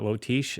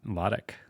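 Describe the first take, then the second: First: The name ends without a k sound. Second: The name ends with a k sound. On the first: The speaker calls it wrong. "it's not Lotish" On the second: The speaker calls it right. "it's L A H T I C K"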